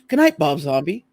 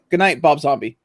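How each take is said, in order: First: The pitch moves expressively at the end. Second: The pitch stays flat at the end. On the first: It sounds like a warm personal wish. "now it's like putting inflection at the end" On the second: It sounds like a plain machine readout. "Before it was just like"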